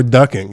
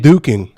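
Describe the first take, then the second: First: "ducking" with a short uh vowel; ducking pronunciation. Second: "duking" with a long oo vowel; duking pronunciation. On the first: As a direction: say "ducking" as DUCK-ing. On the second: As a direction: say "duking" as DOO-king. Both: Shown as a demonstration. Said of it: "that's what he was saying".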